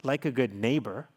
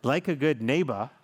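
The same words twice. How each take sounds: The two takes are said the same way.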